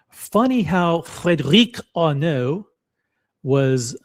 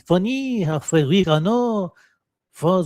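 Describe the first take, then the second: First: It is spoken with a British accent. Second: It is spoken with a French accent. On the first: "I did that in a British accent" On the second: "Let me try it in French"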